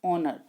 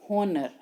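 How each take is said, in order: First: "honor" said as "onner", no H; "honor" with the H left silent. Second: "honor" wrongly said with a breathed H, "honner"; "honor" as "HON-ner", H pronounced; sounded H. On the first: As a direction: start "honor" straight on the vowel. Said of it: "it is pronounced honor". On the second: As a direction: voice the H at the start of "honor". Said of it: "but it is not pronounced". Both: Shown as a demonstration.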